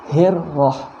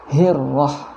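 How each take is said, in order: First: The r sound is held and doubled. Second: The same.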